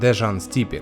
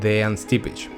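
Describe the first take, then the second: First: The first name has a 'zh' sound, surname ends 'k'. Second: The first name has a 'y' sound, surname ends 'ch'. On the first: The speaker calls it wrong. "что, как выяснилось, неверно" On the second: The speaker calls it right. "Да-да, именно так"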